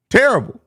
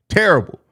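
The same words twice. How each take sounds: First: Terrible pitched much higher on the second go; emphatic repeat. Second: Said in the usual way. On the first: Real, not acted. Streamer repeats his verdict on Drummond, higher and emphatic. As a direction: hit Terrible again, higher and harder.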